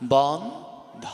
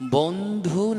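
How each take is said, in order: First: The word ends with an o vowel. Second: The word ends with a u vowel. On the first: The friend belongs to everyone. The speaker calls it right. "ওকার দেবেন, বন্ধ উচ্চারণ হবে বন্ধ, বহু বচন" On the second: The friend belongs to one person only. The speaker calls it wrong. "বন্ধু রস্যুকার দিলে এক বচন"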